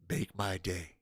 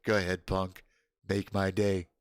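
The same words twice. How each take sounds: First: "Make my day" dropped much softer and low; softer repeat. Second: Lower, steady tough-guy line; tough-guy movie quote. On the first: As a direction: murmur "Make my day" as a cool, quiet threat. Repeating the movie line. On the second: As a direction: dare him coolly, like a movie cop. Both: Pretend.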